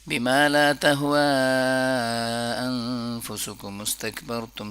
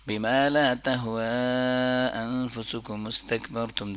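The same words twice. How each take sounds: First: The long vowels are stretched as long as possible. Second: The long vowels are stretched to a medium length. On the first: "सबसे पहला तरीका जो मैक्सिमम इससे ज़्यादा स्ट्रेच नहीं किया जा सकता" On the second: "दरमियाना तरीका"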